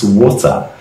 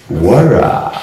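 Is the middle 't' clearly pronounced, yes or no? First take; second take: yes; no. First: The middle t is pronounced as a clear t sound. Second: The middle t is softened to a quick r-like sound. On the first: The speaker calls it wrong. "we don't pronounce water as water" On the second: The speaker calls it right. "It's wara"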